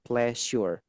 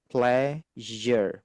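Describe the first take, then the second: First: The middle consonant is not a z-like sound. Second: The middle consonant is a buzzing z-like sound. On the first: The speaker calls it wrong. "bukan pleasure" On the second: The speaker calls it right. "ini jadi Z ya"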